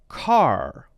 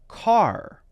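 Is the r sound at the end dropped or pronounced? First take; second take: pronounced; pronounced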